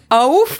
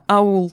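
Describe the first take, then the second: First: The word ends with an f sound. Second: The word ends with an l sound. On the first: The speaker calls it wrong. "он до сих пор не может слово аул нормально договорить" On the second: The speaker calls it right. "Да, аул"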